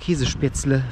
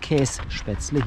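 First: The first part is said in full as Käse. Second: The first part is shortened to Käs. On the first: This is how the dish is called here. "hier ist es Käse" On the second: This is how the dish is called in the other region. "Da heißt es übrigens Kässpätzle"

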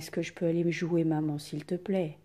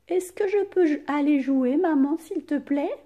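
First: The voice stays flat or falls at the end. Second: The voice rises at the end. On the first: It does not sound like a question. The speaker calls it wrong. "On ne dit pas" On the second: It sounds like a question. The speaker calls it right. "Ma voix, elle monte à la fin"

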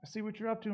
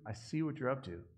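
First: It sounds warm, like approval. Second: It sounds suspicious, like a warning.

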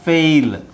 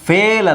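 First: The vowel glides from 'e' toward 'ee'. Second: The vowel is a plain, steady 'e' sound. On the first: The speaker calls it right. "ನಾವು ಏ ಅಂತ ಹೇಳಲ್ಲ. Okay, so ಅದಕ್ಕೆ ಏಯ್" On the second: The speaker calls it wrong. "ಫೇಲ್ ಅಲ್ಲ"

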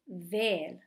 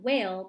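First: The word starts with a V sound in an Indian accent. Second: The word starts with a W sound in a Western accent. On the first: This is how it is said when speaking Hindi. "but with an Indian accent and a V instead of a W" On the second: This is how it is said in English. "So it's the same word, whale"

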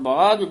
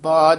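First: The word ends in an aspirated jh sound. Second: The word ends in a plain j sound. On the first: The speaker calls it right. "ਬਾਜ ਗੁਰੂ ਝੱਜਾ ਲਾਉਣਾ ਹੈ, ਇੱਥੇ ਠਮਕ ਲਾ ਦੇਣੀ ਹੈ" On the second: The speaker calls it wrong. "ਇਹਨੂੰ ਬਾਜ ਨਹੀਂ ਕਹਿ ਦੇਣਾ"

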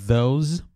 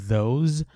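The two takes are said the same way.

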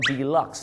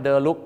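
First: The word is said in an English style. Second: The word is said in a Thai style. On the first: The speaker calls it right. "เขาออกเสียงว่า" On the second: The speaker calls it wrong. "อีกหนึ่งคำที่บ้านเราออกเสียงผิดประจำ"

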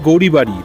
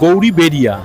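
First: The name ends with the syllables 'bari'. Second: The name ends with the syllables 'beria'. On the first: This is the habitual form used since childhood. "আমি কিন্তু উচ্চারণ করছি গৌরীবাড়ি" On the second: This is the original form of the name. "Original কথা হচ্ছে গৌরী বেরিয়া"

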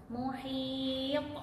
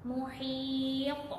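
The two takes are said the same way.

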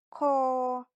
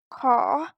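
First: The tone stays level on the syllable. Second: The tone rises on the syllable. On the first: "Він вимовляється також з придихом, але має рівний тон" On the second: "Вимова з придихом, тон висхідний"

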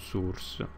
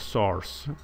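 First: The O vowel is pronounced closed. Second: The O vowel is pronounced open. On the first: The speaker calls it wrong. "non è un source" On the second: The speaker calls it right. "si pronuncia source con la O aperta"

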